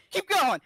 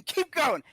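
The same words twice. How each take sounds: First: Higher and louder, driving on; repeated command, louder; louder insistent push. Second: Insistent push. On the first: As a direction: push harder the second time. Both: Acted. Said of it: "and he goes".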